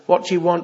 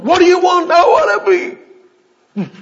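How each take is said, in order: First: Said in the usual way. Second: Very high, very loud shout; imitated crying out. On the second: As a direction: yell it out like a desperate plea. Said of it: "Jesus called that same cry out".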